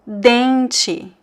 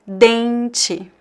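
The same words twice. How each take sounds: Both takes have the same delivery.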